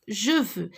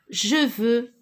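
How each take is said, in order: First: Je veux with a falling close. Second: Je veux with je stressed and rising. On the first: Teacher repeating je veux for the class, falling tune. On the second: Teacher repeating je veux for the class, je rising. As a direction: lift je in je veux. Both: Shown as a demonstration. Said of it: "Je répète".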